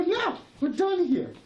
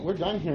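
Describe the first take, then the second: First: Higher and louder, slowed, drawn-out no; firm refusal. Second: Said in the usual way. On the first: Retold or imitated. Man refusing to sit back down for the sheriff, raised and slow. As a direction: plant your feet and refuse slowly. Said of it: "I go". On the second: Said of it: "I go, "No, we're done here".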